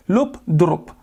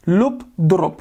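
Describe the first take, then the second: No difference in how they are said.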